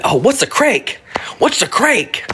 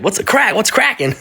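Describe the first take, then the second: First: Imitating a hushed "what's a crank", unvoiced; mock whispered question. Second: Light imitation of "what's crack-a-lacking"; mock street greeting. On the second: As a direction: say "crack" voiced and casual, rising. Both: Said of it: "Which means, like".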